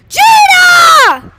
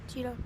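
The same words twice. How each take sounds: First: It is yelled loudly. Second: It is said quietly.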